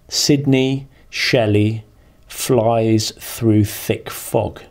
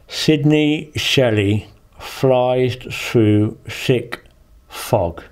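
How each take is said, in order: First: The words are spoken clearly and normally. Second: The words are spoken muffled, with obstructed articulation.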